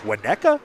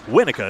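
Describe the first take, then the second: First: The middle of the word has a t sound. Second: The middle of the word has no t sound. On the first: The speaker calls it wrong. "I was gonna say like Winnetka" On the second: The speaker calls it right. "Winnica is apparently the proper pronunciation"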